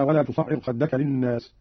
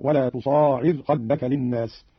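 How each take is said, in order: First: Said in the usual way. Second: تصاعر as tuṣāʕir; slow, long alif after the sad in تصاعر; single light ʕayn in تصاعر, long ā before it; Qalun reading. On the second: Shown as a demonstration. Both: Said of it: "قرأ قالون بألف بعد الصاد وتخفيف العين".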